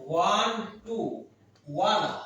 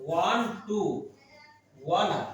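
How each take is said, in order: Both takes have the same delivery.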